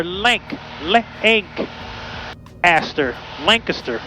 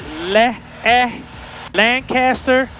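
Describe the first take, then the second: First: Lancaster split as LANK, LANK, then LANK-uh-ster; sounded-out alternative. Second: Lancaster broken into LA, A, then LAN-CASS-ter; sounded-out variant. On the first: Pilot puzzling it out for viewers, Lancaster sounded out as LANK-uh-ster. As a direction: break off LANK before finishing Lancaster as LANK-uh-ster. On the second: Pilot asking viewers the right way, Lancaster sounded out as LAN-CASS-ter. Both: Shown as a demonstration. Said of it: "some specific way in which you do pronounce".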